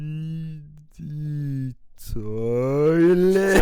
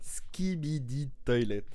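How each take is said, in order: First: It is said slowly. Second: It is said at normal speed.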